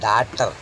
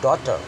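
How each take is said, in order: First: The first vowel sounds like 'aa'. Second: The first vowel sounds like 'aw'. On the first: The speaker calls it wrong. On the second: The speaker calls it right.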